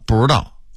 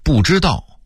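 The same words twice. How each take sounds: First: The syllables run together quickly and blur. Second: Every syllable is said clearly and in full.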